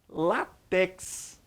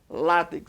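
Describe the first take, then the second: First: The stress is on the last syllable. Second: The stress is on the first syllable. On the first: The speaker calls it wrong. "tem muita gente que fala o quê?" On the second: The speaker calls it right. "Paroxítona terminada em X. A pronúncia é essa"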